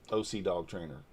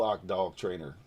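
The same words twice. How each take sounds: First: "O C" spelled out as two letters, oh-see. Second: "Oc" said as one syllable, like "ock"; Oc as a word. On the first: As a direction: read "O C" letter by letter. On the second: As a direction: read "Oc" as a single word rhyming with "dock". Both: Real, not acted. Reads a username two ways.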